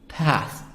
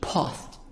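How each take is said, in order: First: It is said with an American accent. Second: It is said with a British accent.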